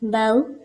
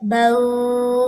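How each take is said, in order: First: The final vowel is said gently and smoothly. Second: The final vowel is stretched out long. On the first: The speaker calls it right. "नरमी से अदा करना है इसको" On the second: The speaker calls it wrong. "तो ये लंबा हो गया"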